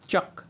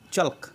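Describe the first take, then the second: First: The L sound is silent in the word. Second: The L sound is pronounced in the word. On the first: The speaker calls it right. "এটাকে উচ্চারণ করতে হবে চক" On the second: The speaker calls it wrong. "অনেকে উচ্চারণ করে চল্ক, কিন্তু এটা ভুল"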